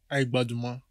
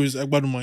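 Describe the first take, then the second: First: "Baduma" with the opening sound dropped, said softly; soft, low "Baduma", first syllable missing; mispronounced surname. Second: "Agbaduma" in full, with the opening "Agba"; corrected surname. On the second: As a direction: correct them with the whole "Agbaduma". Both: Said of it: "how to pronounce your name".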